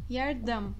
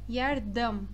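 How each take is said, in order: Both takes have the same delivery.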